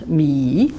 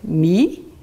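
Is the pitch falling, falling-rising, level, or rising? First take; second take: falling-rising; rising. First: The pitch dips low, then rises again. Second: The pitch rises from mid to high. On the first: "Ça descend, ça remonte" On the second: "Ça monte"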